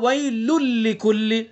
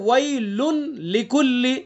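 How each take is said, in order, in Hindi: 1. n पूरी तरह से बाद वाले l में मिल जाता है। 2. waylun का अंतिम n साफ़ बोला जाता है। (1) "तनवीन की आवाज यहां पर खत्म हो गई" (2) "असल क्या है"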